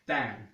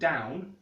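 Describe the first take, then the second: First: The vowel is one steady, continuous sound. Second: The vowel glides as a diphthong. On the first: "not even being a diphthong but one continuous vowel" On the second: "where I would say"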